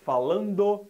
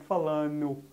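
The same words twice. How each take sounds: First: The D in the ending is clearly pronounced. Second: The D in the ending is dropped. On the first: The speaker calls it right. "tem que pronunciar o D" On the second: The speaker calls it wrong. "e não falando"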